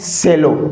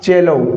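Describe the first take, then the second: First: The word begins with an s sound. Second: The word begins with a ch sound. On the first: The speaker calls it wrong. "नहीं साथियों" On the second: The speaker calls it right. "इसका उच्चारण क्या होगा, चेलो"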